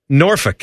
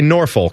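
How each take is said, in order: First: It is said the way locals pronounce it. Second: It is said the way outsiders pronounce it. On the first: "Norfolk is how you say it" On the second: "but you would just say Norfolk"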